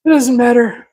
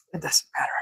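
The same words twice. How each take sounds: First: Said in the usual way. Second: Breathy whisper to self. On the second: Real, not acted. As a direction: whisper it under your breath. Repeated, first whispered, then plain.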